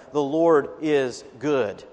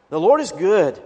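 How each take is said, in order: First: Slow, measured "the Lord is good"; slow reading. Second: "Lord" hit louder in "The Lord is good"; emphatic repeat. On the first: Preacher reading the verse aloud, slow and measured. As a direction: read the verse slowly, letting each word sit. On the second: Preacher repeating the verse to the congregation, louder on "Lord". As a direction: proclaim it, stressing "Lord". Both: Shown as a demonstration. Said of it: "we also hear in verse seven".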